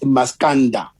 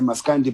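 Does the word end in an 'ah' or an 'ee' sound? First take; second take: ah; ee. First: The word ends with an 'ah' vowel. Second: The word ends with an 'ee' vowel. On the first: This is the proper form of the word. The speaker calls it right. "but it's Maskanda" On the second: This is the form people commonly use. The speaker calls it wrong. "we even accustomed ourselves, you know, pronouncing it like that"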